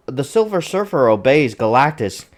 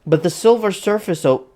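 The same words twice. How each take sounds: First: Said in the usual way. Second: "Surface" said for "Surfer", cut off mid-word; slip of the tongue. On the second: Real, not acted. Vlogger fumbling the hero's name, a quick slip. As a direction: stumble into "Surface" and break off.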